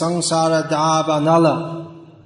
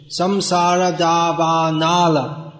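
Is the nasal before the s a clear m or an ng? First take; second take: ng; clear m. First: The nasal before the s is a softened ng. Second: The nasal before the s is a clear m. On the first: The speaker calls it right. "But it's" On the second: The speaker calls it wrong. "here's a common mis- mispronunciation"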